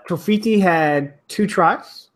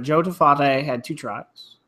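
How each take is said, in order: First: Tofiti with a long ee in the middle, toh-FEE-tee; mispronounced name. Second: Tofate with an open ah, toh-FAH-tay; corrected name. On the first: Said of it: "Talking like a British guy". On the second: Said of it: "Tofa-, Tofate, sorry". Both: Real, not acted.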